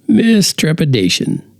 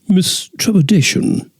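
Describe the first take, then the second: First: It is said in the narrator's ordinary accent. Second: It is said in a put-on British accent.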